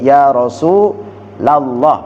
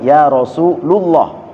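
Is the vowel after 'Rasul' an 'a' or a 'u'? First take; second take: a; u. First: The vowel after 'Rasul' is an 'a' sound. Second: The vowel after 'Rasul' is a 'u' sound. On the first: The speaker calls it right. "menjadi ya Rasulullah" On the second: The speaker calls it wrong. "bukan ya Rasulullah"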